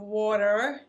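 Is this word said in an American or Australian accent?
American. It is said in an American accent. This is the pronunciation learned after moving. "and water"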